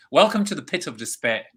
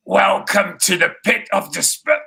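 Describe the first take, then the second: First: Movie line quote again. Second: Lightly voiced menacing welcome, a touch higher; a hint of a sinister host greeting; movie line quote. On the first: Retold or imitated. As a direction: say the favorite line again, lightly voiced. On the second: Host quoting a favorite film line, lightly voiced sinister welcome. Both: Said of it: "one of my favorite lines".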